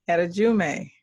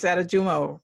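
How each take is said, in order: First: Adejume, ending in a "may" sound; mispronounced name. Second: Adejumo, ending in a "mo" sound; corrected name. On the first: Host misreads guest's surname, mispronounced as Adejume. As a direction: say Adejume with the last syllable as "may". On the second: Host checks guest's surname, corrected to Adejumo. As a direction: say Adejumo with a long final "oh". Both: Real, not acted. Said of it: "No, it's Adejumo".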